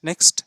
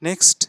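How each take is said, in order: Both takes have the same delivery.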